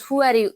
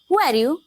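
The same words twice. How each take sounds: First: It is read out flatly, without real questioning. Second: It is said with lively, questioning intonation. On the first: The words are only read, not really asked. The speaker calls it wrong. "we are reading these things, no, we are not exactly what we are asking" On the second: The speaker really wants to know. The speaker calls it right. "Let's talk about with tonality"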